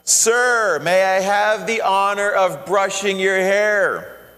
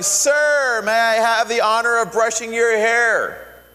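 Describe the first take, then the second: First: It is said loudly. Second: It is said almost yelling. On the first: "So she said louder" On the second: "almost yelling"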